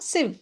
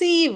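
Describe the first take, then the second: First: The vowel is short, like 'i'. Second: The vowel is long, like 'ee'. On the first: The speaker calls it right. "சிவ் ஷார்ட்டா" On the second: The speaker calls it wrong. "இதை சீவ் அப்படி படிக்க வேண்டாம்"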